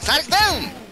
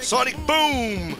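First: The voice sounds thin and nasal. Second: The voice sounds full, not nasal.

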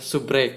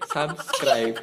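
First: The word is clipped, ending in 'rek'. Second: The word is said in full, ending in 'scribe'. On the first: The speaker calls it wrong. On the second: The speaker calls it right.

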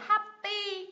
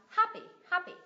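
First: The stress is on the second syllable. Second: The stress is on the first syllable. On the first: The speaker calls it wrong. "Thay vì mình đọc là happy" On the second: The speaker calls it right. "nhấn vào âm tiết thứ nhất"

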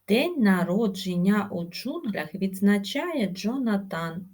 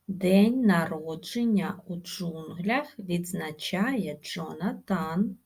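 First: The phrase is spoken very fast. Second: The phrase is spoken slowly. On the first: "І дуже швидко" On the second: "Спочатку промовляємо повільно"

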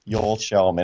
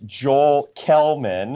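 First: The surname begins with an SH sound. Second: The surname begins with a hard K sound. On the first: This is how the name is said in its home language. The speaker calls it right. "the correct Swedish pronunciation is Joel Shellman" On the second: This is how the name looks when read. The speaker calls it wrong. "If you read his name, it's Joel Kelman"

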